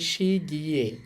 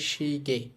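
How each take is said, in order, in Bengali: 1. শেষ স্বরধ্বনিটি 'ye' হিসেবে উচ্চারিত হয়। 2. শেষ স্বরধ্বনিটি সাধারণ 'e' হিসেবে উচ্চারিত হয়। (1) "না বলে" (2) "সহজে এটাকে বলতে পারি"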